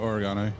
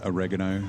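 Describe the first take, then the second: First: It is said with a non-American pronunciation. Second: It is said with an American pronunciation.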